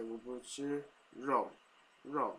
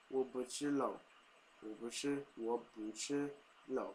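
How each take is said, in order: First: "我不吃肉" slow, careful mainland tone on "肉". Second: Taiwanese way. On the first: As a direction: work the tone of "肉" mainland style. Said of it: "trying to get the tone right". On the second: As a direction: read "我不吃肉" as learned in Taiwan. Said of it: "what I'm used to saying is". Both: Shown as a demonstration.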